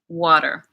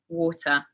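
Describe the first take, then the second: First: It is said in an American accent. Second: It is said in a British accent. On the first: "American English, water" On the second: "In uh, British English, it is water"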